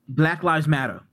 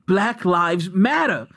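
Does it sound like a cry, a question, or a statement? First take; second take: statement; cry. First: It is said as a plain statement. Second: It is said as an anguished cry.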